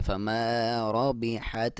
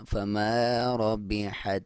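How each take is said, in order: First: Slow, mispronounced ربحت shown as the error; slow demo of the mistake; wrong way. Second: Very slow ربحت with the ra heavy and the ta steady; slow correct recitation. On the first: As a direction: say ربحت the wrong way, slowly, as a warning. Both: Shown as a demonstration. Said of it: "نہیں کرنا".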